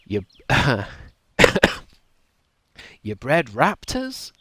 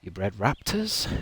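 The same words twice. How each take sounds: First: Slow, rising, disbelieving; incredulous question. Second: Said in the usual way. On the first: Shown as a demonstration. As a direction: drag it out in disbelief. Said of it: "I would have delivered it like that". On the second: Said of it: "I didn't deliver that right".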